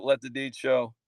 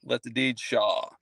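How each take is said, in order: First: "Show" said with a long oh vowel; mispronounced name. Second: "Shaw" with an open aw vowel, slow and lower; corrected name. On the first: Host thanking a viewer by username, "Show" mispronounced with an oh. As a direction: say "Show" to rhyme with go. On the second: Host correcting a viewer's username, "Shaw" said carefully with aw. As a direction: say "Shaw" slowly, to rhyme with law. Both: Real, not acted. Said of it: "Sorry, sorry, sorry".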